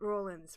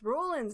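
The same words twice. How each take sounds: First: The first syllable sounds like 'row' in boat. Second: The first syllable does not sound like 'row'. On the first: The speaker calls it right. "It's like rolling" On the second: The speaker calls it wrong. "not Rollins. It's not like uh, Ed Rollins"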